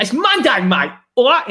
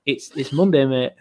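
First: A higher Cockney accent imitating a mate. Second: Said in the usual way. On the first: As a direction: mimic a cheeky Cockney mate. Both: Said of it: "in his Cockney accent".

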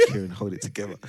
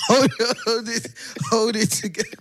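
First: Said in the usual way. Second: Much higher and louder, cracking up; begging him not to laugh while laughing yourself; pleading through laughter to keep a straight face; laughing plea. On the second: Retold or imitated.

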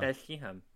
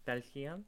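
First: "Belgium." with a throaty kh, as "Belxihəm"; "Belgium." guttural middle, falling; mock local pronunciation. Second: "Belgium?" as "Bel-ian", questioning rise; "Belgium?" soft g dropped, lifted at the end; mock local pronunciation. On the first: Co-host showing how Belgians say "Belgium". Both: Shown as a demonstration. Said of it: "Isn't that how they say?".

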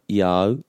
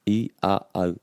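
First: "I au" as one smooth glide; "I au" joined without a break; rolled together. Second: "I a au" said piece by piece; "I a au" broken into distinct parts; separated sounds. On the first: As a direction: roll "I" straight into "au". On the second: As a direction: separate each vowel in "I a au". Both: Shown as a demonstration. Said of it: "we always wanna roll that together".

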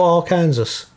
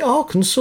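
First: Arkansas said as ar-KAN-zəs; pronunciation option. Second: Arkansas said as AR-kən-saw; pronunciation option. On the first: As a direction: rhyme the end of Arkansas with Kansas. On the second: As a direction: end Arkansas in "saw", silent final s. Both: Shown as a demonstration. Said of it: "Is it Arkansas or Arkansas?".

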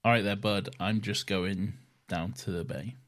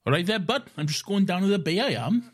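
First: Welsh accent. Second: Lilting Welsh accent, lifted and a bit quicker. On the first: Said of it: "Now challenge me to an accent". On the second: Showing his friend how a Welsh person would sound, in a Welsh accent. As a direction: sing it out like a Welsh lad off to the bay. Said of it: "you sound like Reese from Torchwood". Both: Shown as a demonstration.

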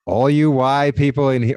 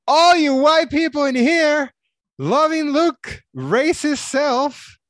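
First: Said in the usual way. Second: High, loud mock shout, slow at the end; all-caps shouting. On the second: Shown as a demonstration. Reading an all-caps comment aloud to cohost, mock shouting. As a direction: yell it like a comment typed in caps. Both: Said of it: "It's in caps".

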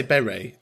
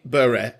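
First: "Bury" in the speaker's own Irish accent, like "berry"; "Bury" rhyming with "very", Irish style. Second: "Bury" in the North West way, short first vowel and clipped-off ending; "Bury" with a northern English vowel; local pronunciation. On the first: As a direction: say "Bury" as "BEH-ree". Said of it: "if I was to say Bury in my accent". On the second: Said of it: "in my accent, I say Bury". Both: Shown as a demonstration.

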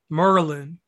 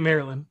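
First: "Merlin", Maryland squeezed into two syllables; local Maryland pronunciation. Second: "Maryland" in the standard way, not "Merlin"; standard Maryland pronunciation. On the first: Host praising a guest's unchanged accent, local pronunciation "Merlin". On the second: Host contrasting it with the local form, standard "Maryland". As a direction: say "Maryland" with its middle syllable kept. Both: Shown as a demonstration. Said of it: "'cause it ain't Maryland".

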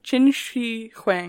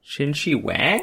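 First: Qin Shi Huang slow with a breathy H; careful pronunciation. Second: Qin Shi Wang with a W sound, questioning; wrong pronunciation. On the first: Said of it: "how to pronounce his name". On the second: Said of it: "There's no W". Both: Shown as a demonstration.

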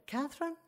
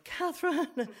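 First: High, questioning call; tentative sing-out with a rising end; mother calling out. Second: High, sing-out name call; imitated call through a door, falling at the end; Pat calling out. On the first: Retold or imitated. Mother calls to her daughter in the toilet, high and questioning. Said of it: "and a voice said". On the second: Pat calls into the toilet for her, high calling voice. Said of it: "Pat opened the door and went".

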